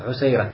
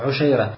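First: The middle consonant is an 's' sound. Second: The middle consonant is an 'sh' sound.

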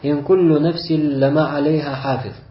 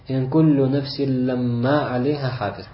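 First: The m sound in lamma is single. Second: The m sound in lamma is doubled. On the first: Every soul surely has a guardian over it. "То есть без удвоения буквы «мим»" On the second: No soul exists without a guardian over it. "То есть мы как читаем?"

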